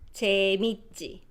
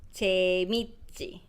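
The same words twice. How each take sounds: No difference in how they are said.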